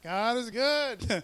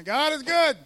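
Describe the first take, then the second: First: God is good stretched slow and even; drawing out the praise slowly for the church; slow drawn out. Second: God is good called out high and loud; proclaiming God is good to the congregation. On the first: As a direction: let each word of God is good linger slowly. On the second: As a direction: shout it out to the church, rising high. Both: Shown as a demonstration.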